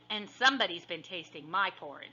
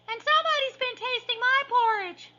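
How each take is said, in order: First: It is said in a medium-sized voice. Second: It is squeaked in a small, high voice.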